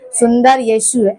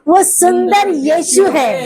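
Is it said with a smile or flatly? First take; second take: flatly; with smile. First: It is said flatly, without a smile. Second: It is said warmly, with a smile.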